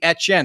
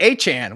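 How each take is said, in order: First: The name is said in a French way. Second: The name is said in an anglicized way. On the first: This follows the name's original language. The speaker calls it right. "it should be Etienne" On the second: This is how the bearer now says his own name. The speaker calls it wrong. "He's calling it Achan"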